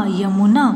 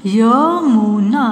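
First: Said in the usual way. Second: Yamuna very slow, each sound held; syllable by syllable. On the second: Shown as a demonstration. (Yamuna को तोड़-तोड़ कर, धीरे) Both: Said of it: "sound pronounce करके देख लीजिए".

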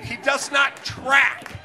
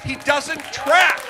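First: Slow, hammered words, each one pressed; emphatic, slow. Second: Slow and louder, "track" rising at the end; louder emphatic repeat. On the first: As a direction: spell out "He does not track" word by word. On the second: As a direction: push harder on "He doesn't track". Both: Real, not acted.

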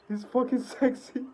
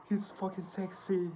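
First: Higher, more emphatic repeat of "He's fucking sexy". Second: Quiet aside. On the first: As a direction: punch "fucking" with excitement. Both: Real, not acted.

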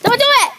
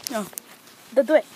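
First: Urgent cry. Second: Lower, softer begging; quiet plea. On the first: Kid begging his friend not to slam him, urgent cry. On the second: Kid begging his friend not to slam him, quiet plea. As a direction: plead under your breath. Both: Real, not acted. Pleading before being slammed.

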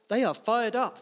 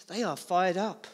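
First: Rousing emphasis. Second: Said in the usual way. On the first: Shown as a demonstration. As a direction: lift the crowd on the repeat. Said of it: "repeated louder and higher". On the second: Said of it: "repeated line, first take".

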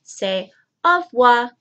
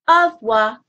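First: Au revoir said clearly, oh ruh-VWAR; teacher models au revoir; modelled for repeating. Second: Au revoir said louder, oh ruh-VWAR; louder teacher repeat of Au revoir; echoed for repeating. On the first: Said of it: "This is a tongue twister". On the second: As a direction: repeat Au revoir for the kids to copy. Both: Shown as a demonstration.

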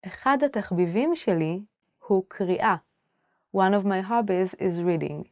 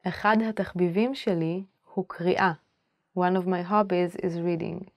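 The two takes are said the same way.

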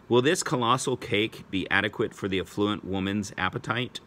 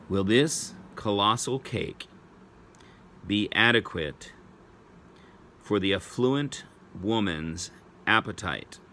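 First: Said in the usual way. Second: Slow, in short chunks with long pauses; measured spelling-test read, pausing between phrases; slow dictation. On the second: Real, not acted. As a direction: dictate it phrase by phrase for pupils writing it down. Repeat for pupils writing it down.

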